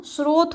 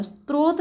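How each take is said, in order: First: Said in the usual way. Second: स्रोत as "strot", a t slipped in; slow स्रोत with an intrusive t after s; wrong-form demo. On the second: Shown as a demonstration. Teacher rejecting the misspelling, स्रोत slowly said as "strot". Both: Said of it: "स्रोत नहीं".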